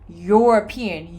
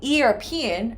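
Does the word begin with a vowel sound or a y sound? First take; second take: y sound; vowel sound. First: The word begins with a consonant y sound. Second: The word begins with a plain vowel sound. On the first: The speaker calls it right. "No, I say European" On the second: The speaker calls it wrong. "I don't say European"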